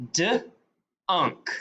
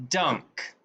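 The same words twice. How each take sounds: First: "D-unk" split into duh, then unk; sounded out. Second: Said in the usual way. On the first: Shown as a demonstration. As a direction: sound out "D-unk" with a pause after the d. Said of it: "go to sound 'em out". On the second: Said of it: "put them together".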